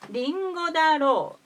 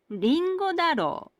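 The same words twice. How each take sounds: First: The pitch peaks on the syllable ro. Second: The pitch peaks on the syllable da. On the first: "The accent peak is on ro or sho" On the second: "The accent peak is on da or de. This is not correct according to the dictionaries"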